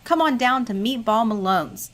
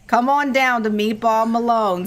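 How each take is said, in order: First: It is read in his own voice. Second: It is read as a Bobby Malone impression.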